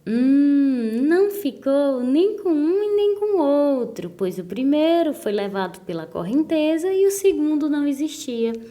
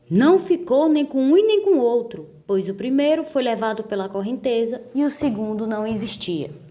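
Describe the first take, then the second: First: It is read with enthusiasm and admiration. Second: It is read in a very angry, indignant tone.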